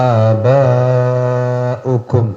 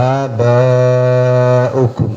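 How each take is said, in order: The two takes are said the same way.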